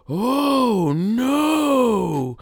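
It imitates the American dub's delivery.

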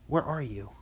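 It is said in a deep, concerned tone.

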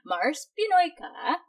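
The voice rises at the end like a question. It is asked as a question. The speaker calls it right. "It's a question. There you go. Intonation"

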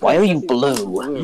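The question is said in a confused tone. "He sounds confused"

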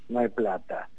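It is said in a sorry, regretful tone. The lack of money is sincerely regretted. The speaker calls it right. "lamentablemente le digo al pueblo argentino"

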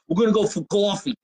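It is said in a New Jersey accent.

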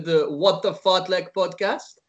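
The name is said with a French accent.

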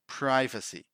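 The first syllable has a long 'i', as in 'pry'. "In American English, people say privacy"

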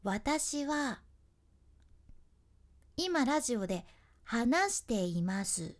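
Syllables differ in weight and spacing.

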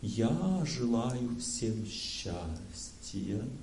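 It is said conveying a mood.

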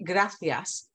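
The middle consonant is a th sound. "They say gracias. ... this TH sound"

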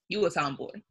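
It is said in a disapproving, negative tone. Being a tomboy is a bad thing. "It was always said with a negative tone underneath it"

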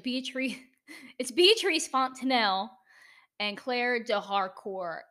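The names are said with an American accent. "That's my terrible, terrible American version of that"

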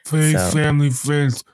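It is said in a put-on impression voice. "So that was my Vinnie D"

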